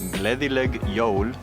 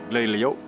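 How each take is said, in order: First: The phrase is said in full, carefully. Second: The phrase is said quickly with sounds dropped. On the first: This is the form taught in school. "When you're saying Merry Christmas" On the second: This is how people say it in the street. "all I heard was"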